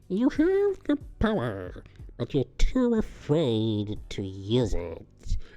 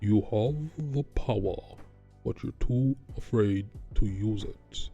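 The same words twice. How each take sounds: First: The voice is high and thin. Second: The voice is low and bassy. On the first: The speaker calls it right. "This high pitched voice" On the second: The speaker calls it wrong. "This is too much bass in his voice"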